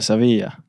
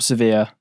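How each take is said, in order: First: It is said with Spanish sounds. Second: It is said with plain English sounds.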